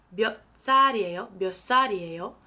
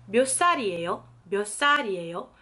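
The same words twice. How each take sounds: The two takes are said the same way.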